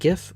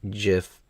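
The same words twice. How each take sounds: First: It begins with a hard g sound. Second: It begins with a soft j sound. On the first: "graphics GIF" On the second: "GIF because giraffe"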